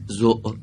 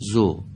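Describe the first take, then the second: First: The vowel is cut off with an abrupt closure. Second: The vowel ends openly without a closure. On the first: The speaker calls it wrong. "نگید زو" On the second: The speaker calls it right. "به این شکل باید بگیم زو"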